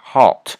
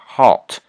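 First: The vowel is rounded with strong resonance. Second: The same.

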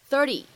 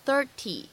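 First: The t is a quick, soft flap sound. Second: The t is a full, clear t sound. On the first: "美式发音当中呢，经常会有一个闪音的处理" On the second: "它不用读成30"

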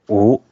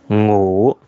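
First: The word starts without a nasal sound. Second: The word starts with a nasal sound. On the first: The speaker calls it wrong. "不能发成五" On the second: The speaker calls it right. "一定要发成五，就是有鼻音的啊"

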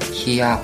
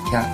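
First: It is split into three separate syllables. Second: It is said as one single syllable. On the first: The speaker calls it wrong. "不要发成kia 或者kia。变成三个或者两个音节，这就不对了" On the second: The speaker calls it right. "应该是啪"

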